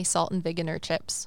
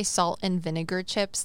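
First: Vinegar said as "viginer", g and n swapped; mispronounced vinegar. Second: Said in the usual way. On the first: Retold or imitated. Telling of a friend who couldn't say it, vinegar mispronounced as "viginer". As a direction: trip vinegar into "VIG-i-ner". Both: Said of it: "they couldn't say salt and vinegar chips".

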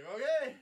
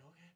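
First: Loud, high-pitched okay; mock enthusiastic friend; egging on. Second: Small okay in the usual register; hesitant agreement. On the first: Retelling friend urging a hit. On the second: Retold or imitated. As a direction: go along with it reluctantly. Retelling own hesitant agreement.

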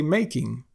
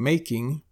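First: "making" said as makin', ending in n; dropped G. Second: Said in the usual way. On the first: Shown as a demonstration. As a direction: end "making" on n, not ng. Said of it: "we drop the G at the end of words". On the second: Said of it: "Instead of saying making".

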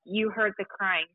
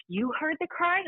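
First: "You heard the crying." said flat and sure, falling at the end, stress on "heard"; certain statement. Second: "You heard the crying?" pitched much higher, rising on "crying"; surprised question. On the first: Bursting into the archivist's office, certain. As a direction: state it as a fact, slowly, "heard" leaned on. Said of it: "I bust into her office and I'm like". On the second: The archivist realising, asking back in surprise. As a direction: ask it in high disbelief, "crying" lifted. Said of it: "She goes". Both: Retold or imitated.

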